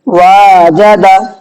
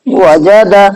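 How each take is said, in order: First: One vowel is stretched out long. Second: All vowels are short, with no stretching. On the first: The speaker calls it wrong. "वाजदा गलत" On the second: The speaker calls it right. "वजदा सही"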